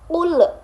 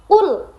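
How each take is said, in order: First: The final l is bounced with an echo. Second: The final l is held clearly without bounce. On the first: The speaker calls it wrong. "dipantul-pantulkan seperti ul" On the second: The speaker calls it right. "jadi harus jelas"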